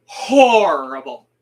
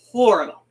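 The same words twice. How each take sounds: First: Horrible drawn out slowly and loudly; emphasis on horrible. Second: Said in the usual way. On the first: Shown as a demonstration. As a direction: lean hard on horrible, slowly. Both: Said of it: "Emphasis on".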